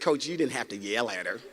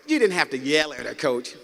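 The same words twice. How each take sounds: First: Low, soft, quoted complaint; hushed, low-pitched reproach; hurt players' reproach. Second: Low-pitched quoted complaint at normal volume; imitating players standing up to their coach; players' reproach repeated. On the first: Retold or imitated. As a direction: imitate wounded players gently scolding their coach. Hurt crying players answer coach.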